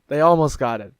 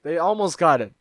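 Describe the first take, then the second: First: Said in the usual way. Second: "almost" lifted higher and louder; stress on almost. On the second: Shown as a demonstration. The vlogger stressing "almost" about the bad translation. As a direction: lean on "almost".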